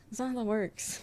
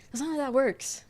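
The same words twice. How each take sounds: First: Said in the usual way. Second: Louder, exasperated correction. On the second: Real, not acted. Streamer fed up with people asking her to psychoanalyze them, louder. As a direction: set them straight, fed up.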